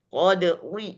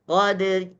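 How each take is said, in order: First: The r is heavy and thick. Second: The r is light and thin. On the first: The speaker calls it wrong. "Nah, itu salah" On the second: The speaker calls it right. "Tetap dibaca tarkik"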